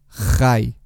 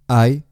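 First: It starts with a harsh throaty consonant. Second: It starts directly with the vowel. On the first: The speaker calls it wrong. "utilizar la J de forma muy agresiva" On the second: The speaker calls it right. "Prueba a utilizar solo la vocal"

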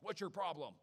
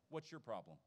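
First: It is asked in an annoyed, scolding way. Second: It is asked sincerely and caringly.

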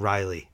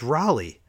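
First: The first syllable sounds like 'rye'. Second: The first syllable does not sound like 'rye'. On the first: The speaker calls it wrong. "it's not Riley. Where are you getting Rye from?" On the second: The speaker calls it right. "It's Raleigh"

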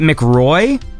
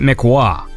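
First: The name ends with a 'roy' sound. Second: The name ends with a 'wah' sound. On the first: "Is it McRoy" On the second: "or is it McWah?"

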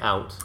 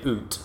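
First: It is said the American way. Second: It is said the Canadian way.

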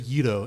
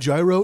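First: The word begins with a y sound. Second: The word begins with a j sound. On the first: The speaker calls it right. "It's a yito" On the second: The speaker calls it wrong. "It's not a gyro"

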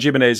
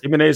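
First: The name is said with an Irish pronunciation. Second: The name is said with a standard, non-Irish pronunciation.

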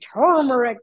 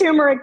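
First: The R after the first vowel is dropped. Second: The R after the first vowel is pronounced. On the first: "but I always say turmeric because when you look at it, it has an R someplace where it shouldn't be" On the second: "It's turmeric"

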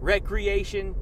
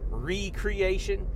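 First: The first syllable is said as 'rek'. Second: The first syllable is said as 'ree'. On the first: It means leisure or play. "as soon as you pronounce it just a little bit different" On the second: It means creating something again. "the word creation is in there"

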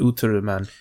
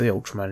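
First: The name is said with a Japanese pronunciation. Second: The name is said with an English pronunciation. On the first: This is how it is said in Japan. "they say Ultraman" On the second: This is not how it is said in Japan. "They don't say Ultraman in Japan"

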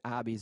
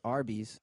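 First: The r sound after the first vowel is dropped. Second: The r sound after the first vowel is pronounced.

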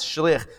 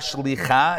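First: The word ends with an 'ach' sound. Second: The word ends with a 'cha' sound. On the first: The speaker calls it right. "it's shliach" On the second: The speaker calls it wrong. "it's not shlicha"

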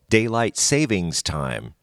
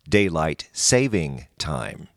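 First: The middle word ends with an s sound. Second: The middle word has no final s sound. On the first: The speaker calls it wrong. "Many people call it daylight savings time" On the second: The speaker calls it right. "it is correctly pronounced daylight saving time"

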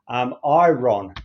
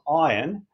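First: The word is said as spelled, eye-ron. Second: The word is said as eye-urn, like usual.

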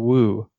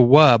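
First: The syllable ends in a long 'oo' vowel. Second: The syllable ends in a short 'uh' vowel. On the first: The speaker calls it wrong. "It's not a woo" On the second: The speaker calls it right. "It's a wuh, by the way"

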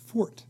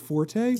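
First: The word is said as one syllable. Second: The word is said as two syllables. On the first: This is the older dictionary pronunciation. "that was the only pronunciation in the dictionary was fort" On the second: This borrows the pronunciation of the music term. "everyone confused it with the term from music, forte"

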